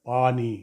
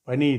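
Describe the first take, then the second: First: The first vowel is long. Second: The first vowel is short. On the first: The speaker calls it right. "இல்லை பானி" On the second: The speaker calls it wrong. "பனி இல்லை"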